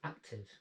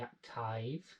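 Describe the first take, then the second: First: The final syllable has a short 'i' vowel. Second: The final syllable has a long 'eye' vowel. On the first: The speaker calls it right. "We say active" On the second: The speaker calls it wrong. "We don't say active"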